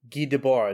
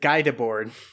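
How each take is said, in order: First: The name is said with French pronunciation. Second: The name is said with anglicized pronunciation. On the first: The speaker calls it right. "I got it" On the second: The speaker calls it wrong. "last time I said Guy Debord. ... it makes my ears bleed"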